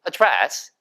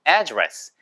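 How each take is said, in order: First: It is said with a British pronunciation. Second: It is said with an American pronunciation. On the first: "영국 사람들은 명사일 때 주소란 단어도 address 이렇게 발음을 하는 경우가 많고요" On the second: "하나는 미국식은요"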